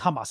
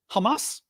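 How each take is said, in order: First: The stress is on the first syllable. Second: The stress is on the second syllable. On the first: "I keep saying Hamas" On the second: "You think it's a second syllable?"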